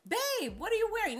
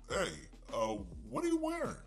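First: It sounds sweet and admiring, a simple compliment. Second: It sounds suggestive and flirtatious, with loaded intent.

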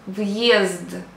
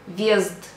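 First: A separate y sound follows the v. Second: The v blends straight into the vowel.

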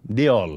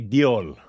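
First: The surname sounds like 'Deol'. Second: The surname sounds like 'Dole'. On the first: This is the actual name. The speaker calls it right. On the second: This is a nickname, not the actual name. The speaker calls it wrong. "We always called him Bobby Dole"

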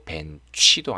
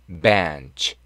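First: The ending is said fully as a separate syllable. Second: The ending is said lightly, passing over it. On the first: The speaker calls it wrong. "벤치도 아니고" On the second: The speaker calls it right. "약간 지나가듯이 발음하니까요"

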